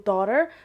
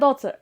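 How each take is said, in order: First: It is said in an American accent. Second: It is said in a Moroccan accent. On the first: "في الطريقة الأمريكية" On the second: "الطريقة المغربية"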